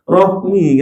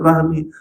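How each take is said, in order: First: The first vowel sounds like a darker 'o'. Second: The first vowel sounds like a plain 'a'. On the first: It is the Arabic way of saying it. The speaker calls it right. "Rohmi kan" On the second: It is the Indonesian way of saying it. The speaker calls it wrong.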